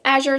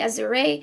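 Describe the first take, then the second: First: The word is said with English sounds. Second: The word is said with Spanish sounds. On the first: "in English it's Azure" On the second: "in Spanish it would be Azure"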